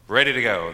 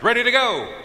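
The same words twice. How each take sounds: First: Said in the usual way. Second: Very high, loud drawn call; rallying shout. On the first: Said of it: "they answered". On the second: Retold or imitated. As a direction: call it out to fire up the room. Retold call in a shouted litany.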